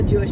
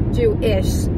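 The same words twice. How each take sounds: First: Said in the usual way. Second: Jewish drawn out slowly, weight on the ish; stress on ISH. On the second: Shown as a demonstration. Qualifying her sister's Jewish boy, Jewish stressed on the ish. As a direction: lean on the second half of Jewish. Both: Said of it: "Emphasis on the ish".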